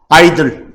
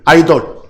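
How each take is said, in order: First: It is said with an English accent. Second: It is said with a Korean accent. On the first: "영어식 발음은 아이들 또는 아이덜" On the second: "우리 한국식 발음은 아이돌"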